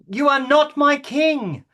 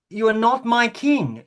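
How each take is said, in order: First: It is shouted very loudly. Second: It is said quietly, without shouting.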